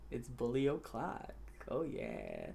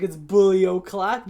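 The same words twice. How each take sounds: First: Very soft, low and slow; low, drawn-out creepy taunt; hushed mock menace. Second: Slow, drawn-out catchphrase, punched up; emphatic mock-menacing call; loud taunting announcement. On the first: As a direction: savor the threat under your breath. Same catchphrase, now hushed menace. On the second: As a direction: proclaim it at Jason, stretching the words. Retelling his taunt to Jason.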